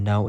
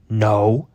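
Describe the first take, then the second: First: Said in the usual way. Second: Imitating a loud, drawn-out "no"; loud, aggressive. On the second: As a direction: blurt "no" forcefully, mimicking her. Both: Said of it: "All, like, loud and aggressive".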